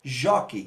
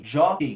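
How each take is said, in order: First: Said in the usual way. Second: "jockey" split as jó, quei, with a loud "jó"; syllable by syllable. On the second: Shown as a demonstration. Teacher counting two syllables, "jockey" split with strong "jó". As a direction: hit the first beat of "jockey", then separate the second. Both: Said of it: "duas sílabas".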